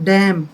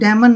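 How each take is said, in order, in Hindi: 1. m के बाद अंतिम n साइलेंट रहता है। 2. m के बाद अंतिम n बोला जाता है। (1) "एन साइलेंट रहेगा" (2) "डैमन नहीं है"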